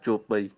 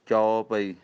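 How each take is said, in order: First: The first vowel is a plain 'o' sound. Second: The first vowel is an open 'au' sound. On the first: The speaker calls it wrong. "ਉਹ ਫਿਰ ਹੋੜਾ ਹੀ ਲੱਗ ਜਾਂਦਾ" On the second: The speaker calls it right. "ਚੰਗੀ ਤਰ੍ਹਾਂ ਚੱਚੇ ਦੇ ਕਨੌੜਾ"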